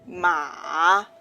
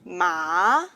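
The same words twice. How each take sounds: First: The pitch dips low, then rises. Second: The pitch rises from middle to high. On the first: "is a low rising tone" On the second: "is a rising tone"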